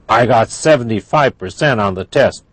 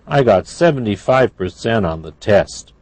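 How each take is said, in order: First: It is said in an angry tone. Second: It is said in a sad tone. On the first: "That's angry" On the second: "That's sad"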